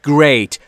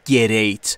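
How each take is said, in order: First: The g and r are joined with no vowel. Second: A vowel sound is inserted between g and r. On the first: The speaker calls it right. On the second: The speaker calls it wrong.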